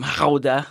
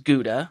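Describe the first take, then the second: First: It starts with a throaty sound, Dutch style. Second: It is said with an American English pronunciation. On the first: "they'll correct you probably. And they'll say" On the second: "the really the American English pronunciation is Gouda"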